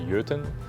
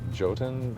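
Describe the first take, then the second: First: The word is pronounced in a Norwegian way. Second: The word is pronounced in an English-style way. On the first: This is the original Norwegian way to say the name. The speaker calls it right. "the correct pronunciation, like Norwegian pronunciation, is Jotun" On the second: This is how the studio says the name. The speaker calls it wrong. "We pronounce it Jotun"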